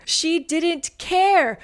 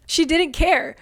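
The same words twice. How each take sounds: First: Slowed-down repeat. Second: Said in the usual way. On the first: Shown as a demonstration. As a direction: drag out She didn't care very slowly. Repeats line, second slowed.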